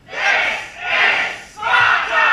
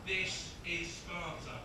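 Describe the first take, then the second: First: Long drawn-out, high roar; huge Scottish battle yell; angry Scottish shout. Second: Said in the usual way. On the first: Acted. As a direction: bellow it slowly at full volume. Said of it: "in your best, angriest Scottish voice". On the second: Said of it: "really loud in Scottish to shout out".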